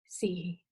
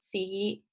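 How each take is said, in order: First: The syllable is said with the fourth tone. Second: The syllable is said with the fifth tone.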